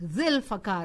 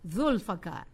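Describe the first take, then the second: First: The first vowel is an 'ee' sound. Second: The first vowel is an 'oo' sound. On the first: It follows a preposition. "the pronunciation changes to Maulana Zil" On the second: It stands without a preceding preposition. "In the third part of our dua, we say"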